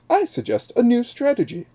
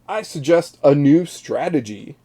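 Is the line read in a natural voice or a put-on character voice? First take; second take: character voice; natural voice. First: It is read in a put-on character voice. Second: It is read in the speaker's natural voice.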